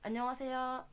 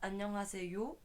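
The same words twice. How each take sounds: First: The final syllable is said lightly and dropped. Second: The final syllable is said strongly and fully. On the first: The speaker calls it right. "c'est léger... on laisse tomber" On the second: The speaker calls it wrong. "on dit pas 안녕하세요"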